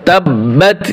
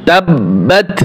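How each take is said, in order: The two takes are said the same way.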